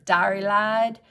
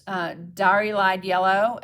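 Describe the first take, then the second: First: "Dari Lide" drawled in a playful Southern accent; lightly put-on Southern accent on "Dari Lide". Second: Said in the usual way. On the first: Shown as a demonstration. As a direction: say "Dari Lide" like a Southern belle, a bit louder. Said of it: "when you say it with a Southern accent, it sounds so much better". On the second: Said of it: "when you say it with a Southern accent".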